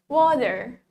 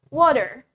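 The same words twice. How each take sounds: Both takes have the same delivery.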